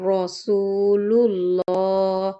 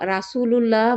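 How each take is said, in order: First: The first syllable is said as a heavy 'ro'. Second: The first syllable is said as a light 'ra'. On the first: The speaker calls it right. "এখানে রকে র বলতে হবে" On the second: The speaker calls it wrong. "রা বলা রাসূলুল্লাহ বলা যাবে না"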